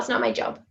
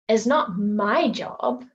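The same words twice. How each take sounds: First: The stress falls on the word job. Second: The stress falls on the word my. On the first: Something simply isn't the speaker's task. "You're literally just saying something isn't your job" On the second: The task belongs to someone else. "implying that something is someone else's job"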